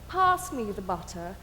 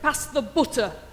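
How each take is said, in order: First: It is said in a refined standard English accent. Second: It is said in a blunt, heavy Yorkshire accent. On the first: "a standard English person would say" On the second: "a Yorkshire person would say, ... It's heavy and stubborn and blunt"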